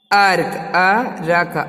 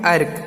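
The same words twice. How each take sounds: First: अर्क split into अरक with an extra vowel; wrong reading. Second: अर्क as one syllable, r joined to k; short clipped अर्क, no vowel after र; right reading. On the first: Teacher showing kids the wrong way, drawn-out अरक. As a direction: stretch अर्क slowly as अ-रक. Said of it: "अर्क नहीं पढ़ते हैं". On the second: Teacher giving kids the correct reading, one-syllable अर्क. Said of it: "क्या पढ़ते हैं?". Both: Shown as a demonstration.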